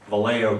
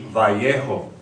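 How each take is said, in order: First: The name is said with an English pronunciation. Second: The name is said with a Spanish pronunciation. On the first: The speaker calls it wrong. "it's not pronounced correctly" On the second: The speaker calls it right. "It should be Vallejo"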